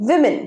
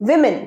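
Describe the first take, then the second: No difference in how they are said.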